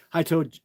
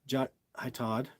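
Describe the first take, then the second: First: "Toad" said as the word toad, long oh like road; misread name. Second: "Todd" said with a short ah, like "tod"; corrected name. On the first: Reading a fan's greeting, trips and says "Toad" with a long oh. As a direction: slip reading "hi, Toad" aloud, rhymes with road. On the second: Correcting himself after misreading his own name: "Todd" with a short ah. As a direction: fix it to "Todd", short vowel rhyming with cod. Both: Real, not acted. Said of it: "I called myself Toad".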